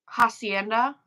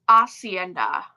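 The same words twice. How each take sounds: First: The first H sound is pronounced. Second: The first H sound is silent. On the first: The speaker calls it wrong. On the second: The speaker calls it right.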